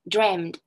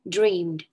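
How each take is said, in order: First: The word ends with a t sound. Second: The word ends with a d sound. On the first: This is the British form. "in British English, the past forms of them end with T" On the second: This is the American form. "in American English, they end with ed"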